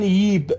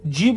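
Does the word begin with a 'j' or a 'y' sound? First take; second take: y; j. First: It begins with a 'y' sound, Iraqi dialect style. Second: It begins with a 'j' sound.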